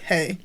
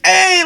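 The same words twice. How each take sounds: First: The greeting sounds flat and unenthusiastic. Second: The greeting sounds excited and enthusiastic.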